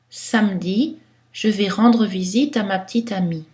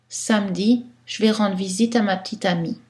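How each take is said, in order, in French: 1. Certaines voyelles faibles sont prononcées, d'autres sont omises. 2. La plupart des voyelles faibles sont omises. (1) "Dans un style neutre qui pourrait passer dans toutes les situations" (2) "Dans un style de parler informel"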